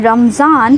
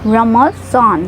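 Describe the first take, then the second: First: The middle consonant is a plain z sound. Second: The middle consonant is the emphatic swad sound. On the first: The speaker calls it wrong. "काफी लोग कहते हैं रमजान" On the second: The speaker calls it right. "स्वाद की आवाज निकालेंगे यहाँ पे"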